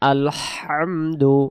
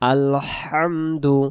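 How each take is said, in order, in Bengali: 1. h টি গলা থেকে জোর দিয়ে চাপা হয়। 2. h টি গলা থেকে জোর দিয়ে চাপা হয়।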